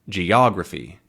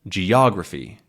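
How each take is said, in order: The two takes are said the same way.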